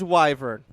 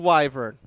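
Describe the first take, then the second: First: It is said with an American pronunciation. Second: The same.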